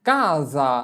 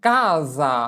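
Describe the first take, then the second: No difference in how they are said.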